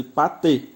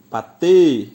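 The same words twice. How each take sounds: First: Said in the usual way. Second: "Patê" with the final "tê" much louder and held; "Patê", leaning hard on the closing "tê"; stress on final TÊ. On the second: Shown as a demonstration. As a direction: punch and stretch the last syllable of "Patê". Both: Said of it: "o T é a sílaba mais forte".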